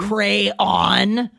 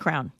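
First: The word is said with two syllables. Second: The word is said with one syllable. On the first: "When you mean to say crayon" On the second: "I say crown"

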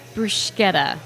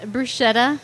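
First: The middle consonant is a hard 'k' sound. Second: The middle consonant is a soft 'sh' sound. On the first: The speaker calls it right. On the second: The speaker calls it wrong.

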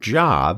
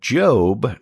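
First: The vowel is a short 'o' sound. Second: The vowel is a long 'oh' sound. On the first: This is the ordinary word for work. The speaker calls it wrong. "not Job, although it looks like Job" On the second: This names the biblical book and its figure. The speaker calls it right. "Now that's pronounced Job"

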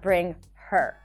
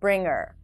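First: The H in 'her' is pronounced. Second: The H in 'her' is dropped. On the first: "not bring her" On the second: "you can say bring her along"

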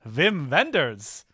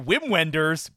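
First: The name is said with German sounds. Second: The name is said with English sounds. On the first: The speaker calls it right. "That's how you say his name, right?" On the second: The speaker calls it wrong. "I want to say Wim Wenders, but I know that's not how you say his name"

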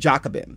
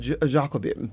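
First: The name is pronounced in a plain English way. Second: The name is pronounced in a French-sounding way. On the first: "It could have been Jacobin" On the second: "I guess it didn't have to be sort of French on the front side of it"

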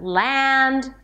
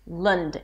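First: The vowel is an a sound. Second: The vowel is a schwa sound. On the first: The speaker calls it wrong. "not Land" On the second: The speaker calls it right. "It's an L sound, a schwa, an ND"

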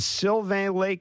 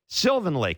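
First: The first word sounds like French 'Sylvain'. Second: The first word sounds like English 'Sylvan'. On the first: The speaker calls it wrong. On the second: The speaker calls it right.

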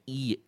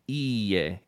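First: It is said in a meek, submissive way. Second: It is said in a confident, formal way.

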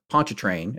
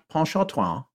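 First: The name is pronounced with English sounds. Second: The name is pronounced with French sounds.

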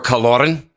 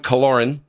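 First: The name is said in a Scottish accent. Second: The name is said in a plain American accent.

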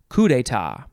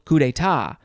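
First: The stress is on the first syllable. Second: The stress is on the last syllable. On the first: "emphasize the first syllable" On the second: "emphasize the last syllable"

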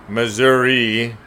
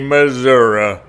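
First: The name uses the city's preferred pronunciation. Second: The name uses the statewide pronunciation. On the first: This is the form preferred by city residents. "Folks in the city of St. Louis do prefer that pronunciation" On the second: This is the form expected elsewhere in the state. "But anywhere else in the state, you'd better say Missouri"

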